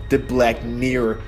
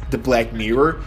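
No difference in how they are said.

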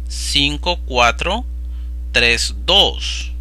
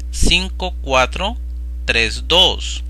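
The two takes are said the same way.

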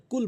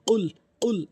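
First: কুল with a light front k; ordinary k at the start of কুল; wrong pronunciation. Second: কুল punched higher with a back q; pushed deep q. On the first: Teacher warns against the error, plain k কুল. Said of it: "কুল বলা যাবে না". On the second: Teacher drills the correct word, pushed q কুল. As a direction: pop কুল from deep on the tongue. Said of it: "এভাবে উচ্চারণ করবেন". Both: Shown as a demonstration.

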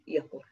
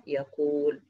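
First: يقول said as yaqul with a short u; short second vowel in يقول, closing on l; shortened middle vowel. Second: يقول with a long drawn oo; long middle vowel. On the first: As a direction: cut the oo of يقول to a brief damma. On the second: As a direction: stretch the oo in يقول before the l. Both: Shown as a demonstration. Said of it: "أنا بحذف ده منعًا لالتقاء الساكنين".

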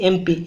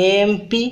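First: Said in the usual way. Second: ଏମ୍ P with the first "e" drawn out; opening vowel stressed. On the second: Shown as a demonstration. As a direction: lean on the "e" that opens ଏମ୍ in ଏମ୍ P. (ଏମ୍ ପିର ଆରମ୍ଭ ଏ ଧ୍ୱନିକୁ ଲମ୍ବାଇ କୁହନ୍ତୁ) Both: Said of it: "ଏ ଆସୁଛି ନିହାତି".

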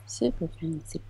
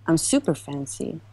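First: Soft playful whisper, much quieter. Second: Said in the usual way. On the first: Pretend. Streamer repeating her boast to chat in a whisper. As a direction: whisper it back to yourself.

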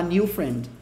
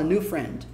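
First: 'new friend' with 'new' as nee-oo; Brazilian-style 'niu'. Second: 'new friend' with 'new' close to noo; correct near-'noo' vowel. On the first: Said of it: "soa bem brasileirado". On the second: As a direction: say 'new friend' with hardly any ee glide. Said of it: "mais próximo de nu do que de new". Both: Shown as a demonstration.

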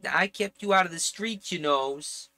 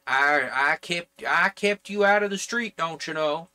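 First: Higher-pitched put-on Jersey accent; attempted Jersey accent. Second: Put-on louder, higher, indignant off-target Jersey accent; wrong New Jersey accent. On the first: Relative guilt-tripping their kin, in an attempted Jersey accent. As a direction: try out a New Jersey accent. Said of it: "I might be able to do a Jersey accent". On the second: Relative guilt-tripping their kin, in a wrong New Jersey accent. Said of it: "that's the wrong accent for New Jersey".

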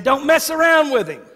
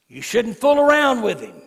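First: Louder, higher repeat; repeated for emphasis. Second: Said in the usual way. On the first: Real, not acted. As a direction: hammer the warning home. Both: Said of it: "I said".

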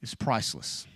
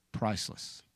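First: Said in the usual way. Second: Soft breathy whisper of the word, much softer; whispered echo. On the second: Shown as a demonstration. Preacher whispering the key word to the congregation, hushed. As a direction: let the word fall to a whisper.

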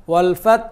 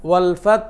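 Both takes have the same delivery.

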